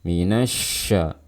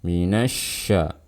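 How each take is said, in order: Both takes have the same delivery.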